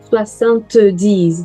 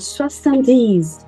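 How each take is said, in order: First: The T sound in the middle is pronounced. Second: The T sound in the middle is silent. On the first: The speaker calls it wrong. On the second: The speaker calls it right.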